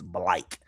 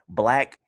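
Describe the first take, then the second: First: The vowel is an 'ike' sound. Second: The vowel is a short 'a' sound. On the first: This is how people in Florida say it. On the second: This is the usual pronunciation.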